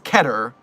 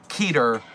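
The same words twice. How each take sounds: First: The first vowel is short, as in 'cheddar'. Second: The first vowel is long, as in 'meter'. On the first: The speaker calls it right. "the next best thing is Keter, rhyming with cheddar" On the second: The speaker calls it wrong. "It's not by any means Keter, rhyming with meter"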